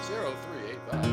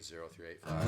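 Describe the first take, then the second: First: The number is said slowly. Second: The number is said fast.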